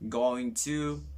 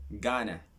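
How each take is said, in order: First: Each word is said fully and separately. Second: The words are run together into a contraction.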